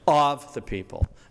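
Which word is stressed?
of. The stress falls on the word of. The speaker calls it wrong. "They emphasize the preposition"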